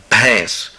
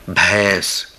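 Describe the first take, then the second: First: بھینس repeated as bhens with aspirated bh, clear and even; repeat Hindi word. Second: Articulated teaching demo of بھینس; careful Hindi word. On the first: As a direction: say بھینس again as a model, aspirated bh and nasal e. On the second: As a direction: model بھینس as bhens, breathy b then long e. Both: Shown as a demonstration. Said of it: "تلفظ را یاد بگیرید".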